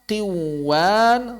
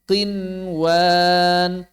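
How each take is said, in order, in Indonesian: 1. Bunyi n menyatu dengan bunyi w setelahnya. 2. Bunyi n jelas diucapkan sebelum w. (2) "Semuanya dibaca izhar"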